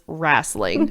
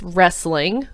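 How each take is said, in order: First: The word is said with a Southern twang. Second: The word is said plainly, without a twang. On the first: The speaker calls it wrong. "people that pronounce it that way" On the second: The speaker calls it right. "It's wrestling, but okay"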